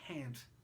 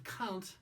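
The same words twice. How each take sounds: First: It is said with an American pronunciation. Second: It is said with a non-American pronunciation. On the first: "Some people in the U S A have trouble with the words they say" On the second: "Instead of can't"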